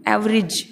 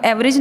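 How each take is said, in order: First: एवरेज ending in short "rij"; teacher's model "AV-rij"; corrected pronunciation. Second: एवरेज ending in "rej"; the mistaken "ev-rej"; wrong way shown. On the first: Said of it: "बोलेंगे तो बोलेंगे". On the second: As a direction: say एवरेज with a full e in the last syllable. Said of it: "एवरेज नहीं कहेंगे". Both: Shown as a demonstration.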